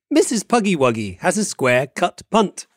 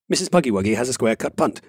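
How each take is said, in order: First: It is said at a normal speed. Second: It is said faster than normal.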